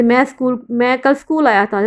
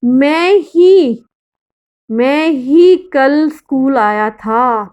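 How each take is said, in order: First: Said in the usual way. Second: Slow, with ही pressed hard; stress on ही. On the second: Shown as a demonstration. Teacher demonstrating emphasis, slow with ही stressed. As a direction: draw out मैं ही, hitting ही. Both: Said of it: "वह है निपात".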